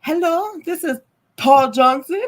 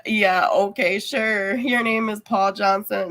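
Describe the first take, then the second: First: Higher-pitched imitation Indian accent; put-on Indian-accented phone greeting; mock Indian accent. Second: Lightly sarcastic, disbelieving reply; dry, skeptical playing along in own accent; mock agreement. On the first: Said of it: "with their Indian accent". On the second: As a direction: humour the caller without believing a word. Acted disbelieving reply to scammer.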